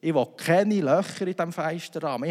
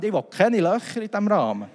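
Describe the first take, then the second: First: Firm insistence. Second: Higher, louder, breaking into a laugh; louder insistence. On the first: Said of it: "ich habe gesagt". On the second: To the installer, a louder laughing refusal. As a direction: push the refusal harder, laughing. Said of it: "Dann kann er sagen". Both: Retold or imitated.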